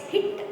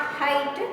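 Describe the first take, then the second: First: "hit" with a short ih vowel; the correct reading, "hit", short vowel. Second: "height" with a long eye vowel; the wrong reading, "height", with a long i; H-I-T mispronounced as height. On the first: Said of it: "pronounce H I T like". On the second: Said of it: "not height". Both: Shown as a demonstration.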